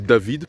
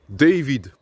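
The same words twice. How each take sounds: First: The name is pronounced the French way. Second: The name is pronounced the English way. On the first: "pour les francophones" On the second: "pour les anglophones"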